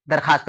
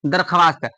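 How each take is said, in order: First: दरखास्त as "dar-khaast", no w; as spoken. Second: दरख्वास्त as "dar-kha-waast"; as written. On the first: Teacher tells students what we say, w left silent. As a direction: drop the w to say दरखास्त. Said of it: "क्या बोलते हैं?". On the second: Teacher reads out the spelling, w sounded. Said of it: "क्या लिखा है?". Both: Shown as a demonstration.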